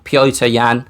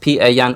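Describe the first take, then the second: First: The first name sounds like Polish Piotr. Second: The first name sounds like English Peter. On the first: The speaker calls it right. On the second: The speaker calls it wrong.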